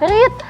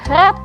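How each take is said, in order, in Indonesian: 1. Vokalnya panjang, seperti 'reed'. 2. Vokalnya pendek, seperti 'red'.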